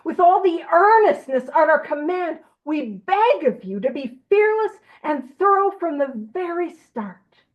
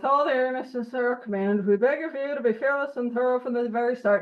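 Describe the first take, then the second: First: It is read in an earnest, urgent way. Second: It is read in a routine, flat way.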